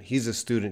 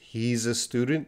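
First: It is said fast, like one word. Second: It is said slowly, word by word.

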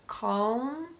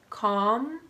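First: A faint L is heard before the M. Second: No L is heard; it sounds like com. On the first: "lifting your tongue to the top of your mouth as you come into the letter M" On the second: "like .com"

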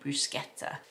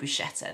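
First: The word is said in an Italian way. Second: The word is said in an anglicized way. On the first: "they say bruschetta" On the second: "the Italians don't say bruschetta"

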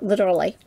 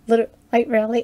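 First: It is said as one word, literally. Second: It is said as two words, light rally. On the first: "Light Rally or Literally. whichever way you want to pronounce it" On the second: "Light Rally or Literally. whichever way you want to pronounce it"

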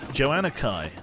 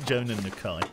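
First: The name is split after Joanna. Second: The name is split after Jonan. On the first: The speaker calls it right. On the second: The speaker calls it wrong.

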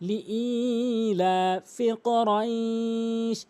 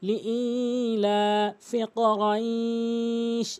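Both takes have the same delivery.

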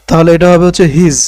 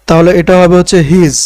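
No difference in how they are said.

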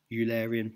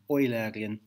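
First: It is pronounced the British way. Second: It is pronounced the German way. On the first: "I try and pronounce it the British way" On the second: "which is a more German way of saying the same thing"

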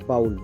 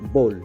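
First: The vowel sounds like 'ow' in 'cow'. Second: The vowel sounds like 'oh' in 'go'. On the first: The speaker calls it wrong. "বাউল বলি আমরা" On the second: The speaker calls it right. "Correct উচ্চারণ হবে"

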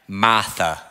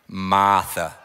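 No difference in how they are said.

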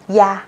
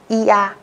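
First: The syllable is said quickly, vowels gliding together. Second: The syllable is said slowly, two vowels apart. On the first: "sau đó các bạn đọc nhanh dần lên" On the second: "Trước tiên các bạn cứ đọc là ia"

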